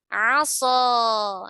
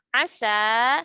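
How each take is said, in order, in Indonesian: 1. Bunyinya diucapkan tebal dan berat. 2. Bunyinya diucapkan tipis dan ringan.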